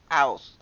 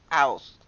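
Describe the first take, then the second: First: The middle consonant is left out entirely. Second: The middle consonant is left out entirely.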